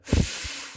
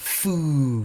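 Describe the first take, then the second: First: The consonant is said alone without a vowel. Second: The consonant is followed by an added vowel. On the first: The speaker calls it right. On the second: The speaker calls it wrong.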